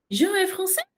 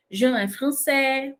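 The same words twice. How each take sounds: First: "Jean est français" pitched high, climbing steeply on français; exaggerated question intonation. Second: "Jean est français" slow and easy, no lift on français; calm statement intonation. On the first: Teacher exaggerating how the French ask, exaggerated question intonation. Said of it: "claro que eu tô exagerando". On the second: Teacher showing a normal simple sentence, calm statement intonation. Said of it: "uma coisa tranquila". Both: Shown as a demonstration.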